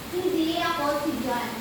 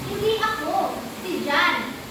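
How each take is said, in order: First: It is said straight through without a pause. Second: There is a pause right after 'ako'. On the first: The speaker denies being that person. "Ang nagsalita ay si Mangge" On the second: The speaker insists someone else did the wrong, not him. "Ang nagsasalita ay nangungum- nangungumbinsi na wala siyang ginawa, ginawang kasalanan"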